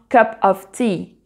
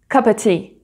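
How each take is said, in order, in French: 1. Le mot « of » est prononcé clairement. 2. Le mot « of » est omis dans la parole rapide.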